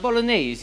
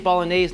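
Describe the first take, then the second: First: The word is said with an Italian-style pronunciation. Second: The word is said with a plain American pronunciation. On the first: This sounds pretentious coming from an American. The speaker calls it wrong. "I feel like an ass if I say bolognese. I'm American" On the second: This is the unpretentious everyday way to say it. The speaker calls it right. "I say bolognese"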